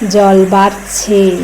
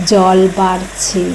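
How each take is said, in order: Both takes have the same delivery.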